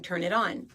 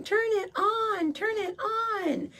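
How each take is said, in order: First: Said in the usual way. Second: Put-on high, slow, wailing little kid; crying toddler. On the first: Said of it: "I'd start screaming and crying". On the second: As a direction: whine it like a sobbing child. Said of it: "I was screaming and crying".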